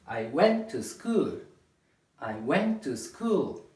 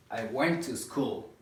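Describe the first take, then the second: First: English sentence in Japanese pitch accent. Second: "went" and "school" stressed, falling tune; English stress accent. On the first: Teacher imitating Japanese people speaking English, Japanese pitch accent. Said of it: "use Japanese way of pitch accent". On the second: Teacher showing where English stress goes, "went" and "school" stressed. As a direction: stress "went" and "school", keep the rest light. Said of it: "the stress is put here and here". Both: Shown as a demonstration.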